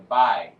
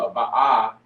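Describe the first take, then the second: First: The sounds are joined into one syllable. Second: The sounds are said as two separate syllables. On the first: The speaker calls it right. "it'll be a bai" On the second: The speaker calls it wrong. "it won't be a ba ah"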